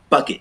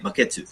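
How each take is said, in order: First: The word has English sounds and two syllables. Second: The word has Japanese sounds and three syllables. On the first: The speaker calls it wrong. "you don't say bucket" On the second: The speaker calls it right. "You say baketsu"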